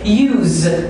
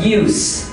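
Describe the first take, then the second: First: Said as the verb form of the word. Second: Said as the noun form of the word. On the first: "use verb" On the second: "use noun"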